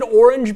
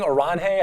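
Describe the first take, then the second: First: The word is said with an English pronunciation. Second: The word is said with a Spanish pronunciation. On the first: The speaker calls it right. "is it Orange B T C?" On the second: The speaker calls it wrong. "I thought it was like the Spanish pronunciation"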